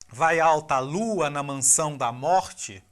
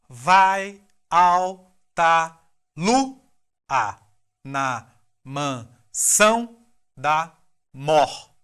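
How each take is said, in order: First: It flows smoothly as a natural spoken phrase. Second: It is broken into separate, evenly spaced syllables. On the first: "Vamos ler mais naturalmente agora?" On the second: "Acento rítmico lu, são, mor"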